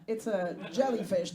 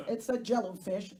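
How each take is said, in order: First: Jellyfish with a clear jelly; jellyfish said right. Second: Jellofish with jello instead of jelly; jellofish said wrong. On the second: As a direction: slip into jellofish. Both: Shown as a demonstration. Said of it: "not a jello".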